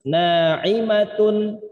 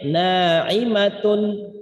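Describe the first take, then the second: No difference in how they are said.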